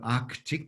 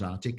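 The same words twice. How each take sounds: First: Every sound of the word is pronounced. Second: One sound of the word is left out.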